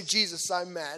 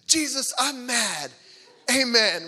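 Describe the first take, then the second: First: Said in the usual way. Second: Loud, high, drawn-out mock-angry prayer; mad toddler prayer. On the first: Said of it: "So Ellie, say". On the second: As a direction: belt it out like a cross two-year-old praying. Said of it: "she was mad one night".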